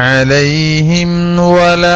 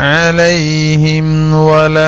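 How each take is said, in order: The two takes are said the same way.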